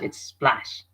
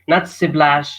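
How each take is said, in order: First: S and P are joined with no vowel between. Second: A vowel sound is inserted between S and P. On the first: The speaker calls it right. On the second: The speaker calls it wrong.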